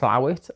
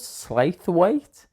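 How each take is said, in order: First: The name is said as a short 'Slowit'. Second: The name is read out the way it is spelled. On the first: The speaker calls it right. "it's pronounced Slowit" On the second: The speaker calls it wrong. "what's this place called?"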